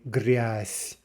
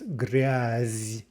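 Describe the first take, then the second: First: The final consonant is a voiceless S sound. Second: The final consonant is a voiced Z sound. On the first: "but we say gryas ... Devoicing Z to S" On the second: "the word for filth is gryaz"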